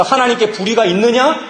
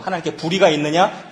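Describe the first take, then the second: First: 있느냐 thrown out higher and louder, rising; ringing question. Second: Said in the usual way. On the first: Shown as a demonstration. Preacher booming the rhetorical question to the congregation. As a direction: proclaim it like a challenge to the hall. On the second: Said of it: "그래서 하나님께 불의가 있느냐?".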